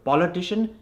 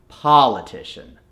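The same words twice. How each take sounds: First: Quick politician with a forward Indian "o"; Indian accent. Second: Politician with a long open "ah" first; American accent. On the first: Coach recaps the form to replace, Indian accent. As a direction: say "politician" the Indian way, rounded first vowel. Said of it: "convert that O into an R". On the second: Coach shows the converted word, American accent. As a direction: say "politician" the American way, as "pah-litician". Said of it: "it's gonna become". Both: Shown as a demonstration.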